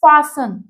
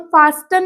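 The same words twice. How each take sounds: First: फास्टन said as "faa-sun", no T sound; silent T. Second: फास्टन with a hard T sounded in the middle; T pronounced. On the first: Teacher modelling pronunciation for learners, फास्टन with silent T. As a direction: drop the T in फास्टन, going straight from S to N. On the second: Teacher showing learners the mistake, फास्टन with the T sounded. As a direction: say फास्टन wrongly, voicing the written T as "faas-tun". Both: Shown as a demonstration. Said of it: "ये जो टी है वो silent रहेगा".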